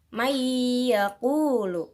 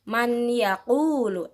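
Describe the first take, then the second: First: The n merges into the y with nasalization. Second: The n is pronounced separately, without nasal merging. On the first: The speaker calls it right. "kita memasukkannya dengan dengung" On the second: The speaker calls it wrong. "Bukan man yaqulu"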